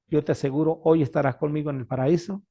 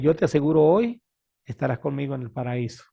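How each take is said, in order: First: The pause comes before the word hoy. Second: The pause comes after the word hoy. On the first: Being in paradise happens today. The speaker calls it right. "En vez de decir" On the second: Only the promise is made today. The speaker calls it wrong. "le ponen la coma al después del hoy"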